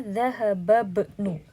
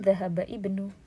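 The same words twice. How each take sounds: First: The i sound of ibnu is dropped. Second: The i sound of ibnu is pronounced. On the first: The speaker calls it right. "jadi kita bacanya dhahaba ibnu" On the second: The speaker calls it wrong. "bukan dhahaba ibnu"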